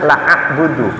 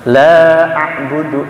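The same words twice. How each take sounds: First: The vowel of 'la' is cut short. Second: The vowel of 'la' is held long. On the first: It means: I will indeed worship. The speaker calls it wrong. "Dia baca la a'budu" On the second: It means: I do not worship. The speaker calls it right. "Yang betul la a'budu"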